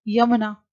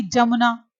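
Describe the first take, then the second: First: यमुना starting with a y sound; correct y sound. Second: जमुना with a j, not y; wrong j sound. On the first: Teacher shows the correct यमुना with a y. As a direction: say यमुना with a clear y. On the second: Teacher shows the wrong जमुना with a j. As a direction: say जमुना starting with j. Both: Shown as a demonstration. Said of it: "अशुद्ध है".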